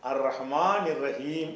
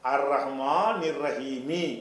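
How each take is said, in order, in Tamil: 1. கடைசி சொல் வெற்று ம் ஒலியில் முடிகிறது. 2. கடைசி சொல் குறில் இ உயிர் ஒலியில் முடிகிறது. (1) "இம்முல முடிக்கணும்" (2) "அர் ரஹ்மான் நிர்ரஹீமி என்று இருக்கிறது"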